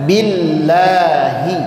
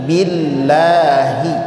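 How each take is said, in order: No difference in how they are said.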